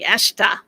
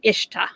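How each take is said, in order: First: The word starts with an 'eh' vowel. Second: The word starts with an 'ee' vowel. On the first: This is how it is said in Egypt. "in Egypt we say Eshta, like with an e" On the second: This is how it is said in Kuwait. "like a Kuwaiti pronunciation"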